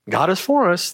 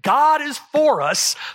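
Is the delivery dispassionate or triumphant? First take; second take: dispassionate; triumphant. First: It is said flatly, without energy or emotion. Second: It is said forcefully, with triumphant energy. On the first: The claim is stated without conviction. The speaker calls it wrong. "I can't imagine Paul saying that dispassionately" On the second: The claim is proclaimed with confidence and triumph. The speaker calls it right. "If I can imagine pounding the pulpit"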